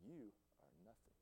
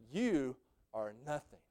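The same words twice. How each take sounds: First: Hushed whisper. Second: Said in the usual way. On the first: Pretend. Preacher imagining telling Brother Keith in heaven, hushed. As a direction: breathe it gently as a secret. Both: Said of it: "I'm gonna say".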